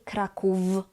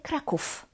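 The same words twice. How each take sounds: First: The final consonant is a voiced v. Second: The final consonant is a voiceless f. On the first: The speaker calls it wrong. "We don't say Kraków" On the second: The speaker calls it right. "we say Kraków"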